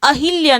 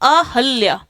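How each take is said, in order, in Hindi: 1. 'h' ध्वनि के बाद एक 'i' स्वर आता है। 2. 'h' ध्वनि के बाद कोई स्वर नहीं आता। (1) "अहिल्या नहीं" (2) "ही नहीं, ह"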